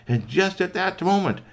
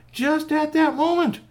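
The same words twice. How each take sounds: First: Raised, louder storytelling; excited storyteller lead-in; suspenseful narration. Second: Very high, loud storytelling; piercing, urgent storyteller cry; heightened suspense. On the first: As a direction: build toward a sudden turn. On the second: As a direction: hammer the dramatic repeat at top pitch. Dramatic repeat for suspense. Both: A narrator's reading.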